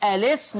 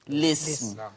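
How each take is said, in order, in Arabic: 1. تبدأ الكلمة بحرف صائت قبل صوت L. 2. تبدأ الكلمة مباشرة بصوت L. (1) "اثبات همزة الوصل" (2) "حذفها"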